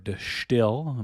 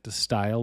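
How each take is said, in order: First: It is pronounced with a Dutch-sounding vowel. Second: It is pronounced with an English-sounding vowel.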